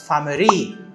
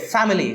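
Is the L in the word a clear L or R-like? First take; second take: R-like; clear L. First: The L is replaced by an R-like sound. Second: The word is said with a clear L sound. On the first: "So it becomes family" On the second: "it's very difficult for them to pronounce, let's say, family"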